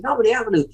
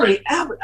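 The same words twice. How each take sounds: First: Higher, falling cry of relief; joyful cry. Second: Higher, rising disbelief at the street name; excited discovery. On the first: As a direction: shout it out in relief. Repeating it, cry of joy. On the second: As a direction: read the sign as if you can't believe it. Spotting the long-sought street. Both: Retold or imitated.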